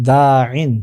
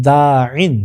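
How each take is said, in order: No difference in how they are said.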